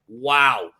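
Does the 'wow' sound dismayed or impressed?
dismayed. It sounds dismayed and disbelieving. The team's failure is shocking. "that same word again in a different way"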